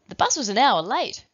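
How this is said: The sentence is said in an excited tone.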